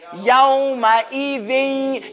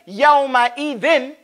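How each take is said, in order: First: The final sound is merged and held longer. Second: The final n is pronounced clearly and briefly. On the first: The speaker calls it right. "You see I extended it" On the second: The speaker calls it wrong. "we don't say yawma idin"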